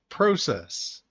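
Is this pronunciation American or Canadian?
Canadian. It is pronounced the Canadian way. "In Canada and other parts of the world"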